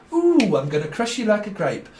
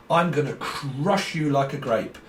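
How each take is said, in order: First: Higher, hammed-up playground menace; mock bully threat. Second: Said in the usual way. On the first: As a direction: tease it out like a cartoon bully. Acted bully quote, second take.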